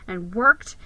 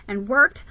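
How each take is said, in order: Both takes have the same delivery.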